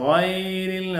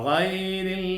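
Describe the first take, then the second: Both takes have the same delivery.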